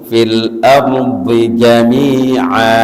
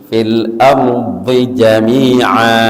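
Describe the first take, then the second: Both takes have the same delivery.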